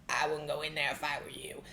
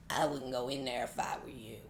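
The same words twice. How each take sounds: First: Low, ominous voice from the dark; menacing low drawl; slow ominous raspy drawl. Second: Deep gravelly radio DJ growl; Wolfman Jack voice. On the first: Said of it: "I would hear that sound". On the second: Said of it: "let me see if I can do it". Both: Retold or imitated.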